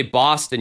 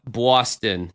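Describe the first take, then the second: First: Said in the usual way. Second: Boston said with a rounded "or"-like first vowel. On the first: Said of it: "you don't say Boston". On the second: Shown as a demonstration. Host demonstrating the local way to say the city name. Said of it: "It's almost like a or".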